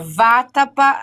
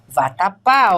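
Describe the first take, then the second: First: The stress is on the first syllable. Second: The stress is on the last syllable.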